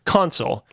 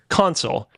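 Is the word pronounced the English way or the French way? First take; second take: English; English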